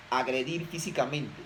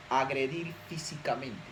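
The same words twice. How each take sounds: The two takes are said the same way.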